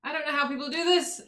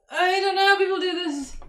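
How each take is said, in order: First: Said in the usual way. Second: High, exasperated whine. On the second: Real, not acted. Streamer baffled by a fiddly task, exasperated. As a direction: say it higher, fed up with the task.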